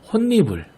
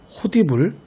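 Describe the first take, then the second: First: The middle consonant is a doubled n sound. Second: The middle consonant is a d sound. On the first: The speaker calls it right. "반드시 함께 적용해서" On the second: The speaker calls it wrong. "발음의 편의만 생각해서"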